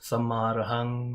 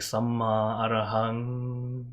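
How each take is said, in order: First: The mantra is said short and quick. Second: The mantra is drawn out and reverberating. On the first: "They tend to just have it as uh, just sammarahang" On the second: "I kind of just elongate it"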